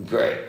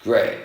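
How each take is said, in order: Both takes have the same delivery.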